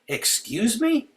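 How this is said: It sounds indignant and challenging. Those in power are being challenged and defied. "when we are engaged in acts of non-compliance with the principalities and the powers, we should say it this way"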